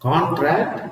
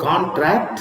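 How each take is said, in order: First: The stress is on the first syllable. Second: The same.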